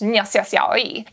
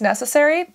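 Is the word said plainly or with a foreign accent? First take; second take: foreign accent; plainly. First: The word is said with a foreign accent. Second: The word is said in plain English. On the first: "I'm just gonna say it with an accent" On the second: "like it's necessary"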